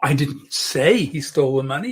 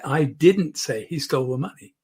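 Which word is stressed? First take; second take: say; didn't. First: The stress falls on the word say. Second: The stress falls on the word didn't. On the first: It was implied but not said. "I may have implied it" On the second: It is a flat denial. "putting the emphasis on didn't"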